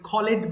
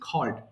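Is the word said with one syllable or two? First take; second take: two; one. First: The ending adds an extra syllable. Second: The ending adds no extra syllable. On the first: The speaker calls it wrong. "এটা অনেকে ভুল করে ভুল করে খলেড বলে" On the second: The speaker calls it right. "তারপর আমি বলে দিচ্ছি খল্ড"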